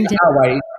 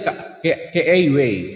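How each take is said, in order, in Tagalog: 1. Ang mga patinig na a ay plain, tuwid na tunog. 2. Ang mga patinig na a ay may glide, parang letter name sa English. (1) "it's only a straight a" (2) "You will not say kaaway"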